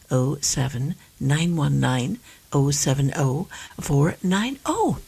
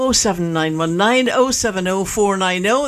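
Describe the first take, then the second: First: The number is read slowly. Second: The number is read at normal speed.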